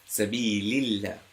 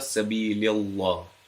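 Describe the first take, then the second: First: The l in Allah sounds light and thin. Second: The l in Allah sounds heavy and full. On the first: The speaker calls it right. "pronounced with an empty mouth. It's pronounced lightly" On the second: The speaker calls it wrong. "it's not Sabilillah"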